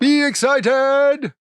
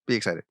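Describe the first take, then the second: First: Loud, slow, high cheer; excited. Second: Said in the usual way. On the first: Shown as a demonstration. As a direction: pump up the excitement. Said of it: "shows how to be excited". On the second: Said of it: "repeat said flatly".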